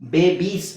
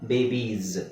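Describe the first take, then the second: First: The word ends with an s sound. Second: The word ends with a z sound. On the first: The speaker calls it wrong. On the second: The speaker calls it right.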